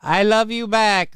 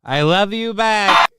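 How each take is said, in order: First: Higher mock repeat; lightly imitated clip line; mild imitation of the clip. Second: Higher, louder, slower repeat; lightly imitated clip line; mild imitation of the clip. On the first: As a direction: parrot the clip dryly. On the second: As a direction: echo the clip mockingly. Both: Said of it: "doing a cringe accent".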